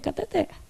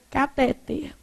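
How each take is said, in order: First: The stress is on the last syllable. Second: The stress is on the second-to-last syllable. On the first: The speaker calls it right. "Oxítona. A última sílaba é que é tônica" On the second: The speaker calls it wrong. "o povo quer falar o quê?"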